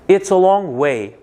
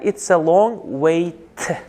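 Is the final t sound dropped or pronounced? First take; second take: dropped; pronounced. First: The final t sound is left out. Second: The final t sound is clearly pronounced. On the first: "T'ni talaffuz qilmayapti"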